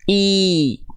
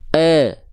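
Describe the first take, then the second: First: The vowel sounds close, like 'ee'. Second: The vowel sounds open, like 'eh'. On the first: The speaker calls it right. "Sekarang angkat tengah lidahnya" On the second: The speaker calls it wrong. "saya akan coba melafalkan vokal I. Tapi tengah lidahnya nggak naik"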